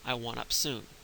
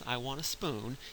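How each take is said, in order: First: The p is moved before the s sound. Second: The s comes before the p in spoon. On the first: "he's moved the P in front of the S" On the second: "when he says"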